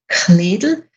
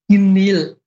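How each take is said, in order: First: It has a strongly aspirated K and a clear D. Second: It has a soft G-like K and no D.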